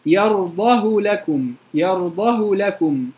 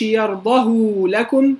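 First: Slow recited يرضه with a brief u on the ه; short damma only. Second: يرضه with a long drawn-out u after the ه; over-lengthened damma. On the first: Teacher gives the correct qasr, short u on يرضه. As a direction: give the ه of يرضه just a short u. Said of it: "ضمة بس". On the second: Teacher warns against this reading, long u on يرضه. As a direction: stretch the u on the ه of يرضه. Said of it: "ما اقولش". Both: Shown as a demonstration.

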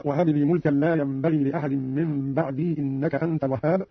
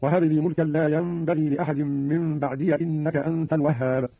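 First: Said in the usual way. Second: "بعدي" as ba'diya before "إنك"; fatha on ya. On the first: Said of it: "قرأ قالون". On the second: Shown as a demonstration. Teacher demonstrating Qalun, "بعدي" read ba'diya in connected recitation. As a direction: open "بعدي" to a short ya, no long ii. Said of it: "قرأ قالون بفتح الياء من بعد وصلا".

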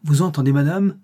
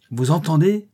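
First: Voix qui gronde. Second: « entendez » crié plus haut et plus fort, montée de question menaçante; voix affreuse qui gronde. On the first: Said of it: "l'affreuse voix gronda plus fort". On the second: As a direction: lancez « entendez » comme une menace, en montant. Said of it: "s'écria-t-elle". (le mari menace sa femme, « entendez » crié en montant) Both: A narrator's reading.

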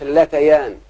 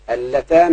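First: اللتيان with an added ya before -aan; incorrect dual form. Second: اللتان with no ya sound, ending in a long -aan; correct dual form. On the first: Teacher warning pupils off a wrong form, اللتيان with ya. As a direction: say اللتيان as alla-ta-yaan. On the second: Teacher showing pupils the feminine dual, اللتان without ya. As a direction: say اللتان as alla-taan. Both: Shown as a demonstration. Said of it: "ما تقولش".

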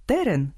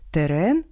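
First: Терен with stress on the first syllable, TE-ren. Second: Терен with stress on the last syllable, te-REN. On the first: Host shows homograph for thorny plant, first-syllable stress. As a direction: punch the first vowel of Терен, then fall. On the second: Host shows homograph for terrain, last-syllable stress. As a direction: land on the second vowel of терен, rising. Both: Shown as a demonstration. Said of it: "а читаються по-різному".

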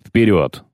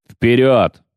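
First: Said in the usual way. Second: «Вперёд!» louder, a firm command; rallying shout. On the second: A narrator's reading. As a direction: echo the order loudly to the men. (громкий приказ «Вперёд!») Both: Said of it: "повторил Филин".

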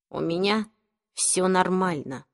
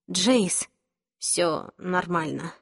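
First: Soft, curt brush-off, hurt; gruff. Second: Soft, slow and gentle; calm him down softly; reassuring. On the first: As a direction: wave her off, gruffly. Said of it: "Он грубо отпихнул Клэри". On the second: Clary comforts Jace after the fight. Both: A narrator's reading.

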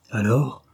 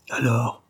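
First: "Alors?" asked with a rising question tune; "Alors?" as an urgent rising question. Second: Said in the usual way. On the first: A narrator's reading. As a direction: lift "Alors?" into a tense question. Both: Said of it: "interrogea Georgie".

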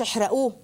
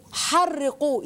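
First: احرقوه with a single short r, as in plain burn him; the teacher shows احرقوه as the form not to use; wrong reading. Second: حرقوه with a doubled, stressed r, ḥarriqūh; right reading. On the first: Teacher to children: the wrong reading, one plain r. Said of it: "مش احرقوه". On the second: Teacher to children: the right reading, a doubled r in حرقوه. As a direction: lean hard on the doubled r in حرقوه. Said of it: "يعني ازدادوا في حرقه". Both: Shown as a demonstration.

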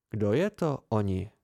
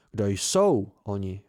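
First: Said in the usual way. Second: Slower correction with "jsou" clearly stressed. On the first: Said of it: "opravil mě". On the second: A narrator's reading. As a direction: lean on "jsou" like a pedantic teacher. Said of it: "opravil mě a zvedl prst".

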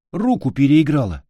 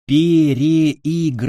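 First: Said in the usual way. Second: ПЕРЕИГРАЛА stretched syllable by syllable, loud and high; drawn-out, emphatic repeat. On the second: Acted. Boy repeats himself to a mishearing friend, stretching ПЕРЕИГРАЛА slowly. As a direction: spell out ПЕРЕИГРАЛА slowly and forcefully.

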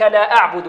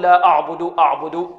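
First: لا أعبد with thin, fronted a; light hamza. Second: لا أعبد with a thick, backed first a; wrong heavy hamza. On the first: Tajweed teacher models correct reading, light thin hamza and ayn. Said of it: "وكذلك لا أعبد". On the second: Tajweed teacher shows pupils the mistake, heavy hamza. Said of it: "البعض ربما يفخم الهمزة هنا". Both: Shown as a demonstration.

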